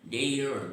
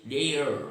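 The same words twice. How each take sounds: First: The final R sound is clearly pronounced. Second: The final R sound is clearly pronounced.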